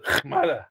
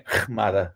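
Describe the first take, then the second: First: High, sharp "Chmada" like a retort; grandmother's sharp chmada. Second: Low, weary Assyrian word from grandmother; grandmother's exasperated chmada. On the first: Grandparents arguing in the car, sharp high "Chmada". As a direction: fling the word out high to end the fight. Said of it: "And it ends with". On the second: Grandmother ending the argument, low and weary "Chmada". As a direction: sigh it out like a tired grandmother. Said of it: "my grandmother going". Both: Retold or imitated.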